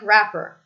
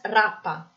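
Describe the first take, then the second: First: It ends with an R sound. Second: It ends with a full A vowel. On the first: "I pronounce the R" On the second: "the schwa ... is replaced with a full vowel"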